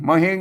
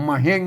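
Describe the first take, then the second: First: The second syllable begins with an h sound. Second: The same.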